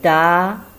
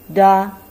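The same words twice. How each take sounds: First: It is said with a rising pitch. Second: It is said short and light, without full tone. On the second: "this is a light tone"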